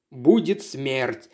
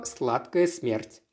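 First: Slow, low graveyard voice; sepulchral voice. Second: Said in the usual way. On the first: A narrator's reading. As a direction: drag it out like a ghost. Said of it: "загробным голосом произнёс Патрик". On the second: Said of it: "мы называем его".

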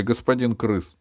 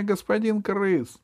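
First: Said in the usual way. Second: "господин крыс" squealed very high and slow; terrified pleading. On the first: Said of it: "Не бейте меня, господин крыс". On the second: A narrator's reading.

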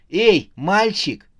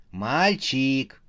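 First: Loud, high, drawn-out hail; calling out. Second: Said in the usual way. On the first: A narrator's reading. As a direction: call a boy over from afar. Clowness calls out to the imp. (громкий протяжный оклик)

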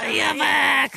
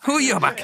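First: Mock insult yelled high; playful shout. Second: Said in the usual way. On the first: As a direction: shout it back as a joke.

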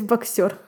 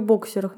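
First: Боксерах stressed on the second syllable, bak-SYO-. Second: Боксерах stressed on the first syllable, BOK-. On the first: Host shows the imposed version, боксерах with stress on SYO. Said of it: "меня заставили с-, сказать боксерах". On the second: Host shows her usual word, боксерах with stress on BOK. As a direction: say боксерах as BOK-sye-rakh. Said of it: "Я вообще говорю боксерах". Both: Shown as a demonstration.

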